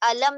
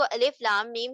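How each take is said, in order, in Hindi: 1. अक्षर एक शब्द की तरह मिलाकर बोले जाते हैं। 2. हर अक्षर का नाम अलग-अलग बोला जाता है। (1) "आप इसे अलम नहीं पढ़ेंगे" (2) "तो आप इसको अलिफ लाम मीम ही पढ़ेंगे"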